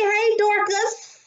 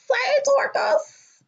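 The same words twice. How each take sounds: First: Said in the usual way. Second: "Hey, Dorcas" lifted far higher and slow, sing-song; high sing-song greeting. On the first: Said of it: "repeats the greeting". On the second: Real, not acted. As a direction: float the repeat of "Hey, Dorcas" way up, slowly. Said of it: "repeats the greeting much higher".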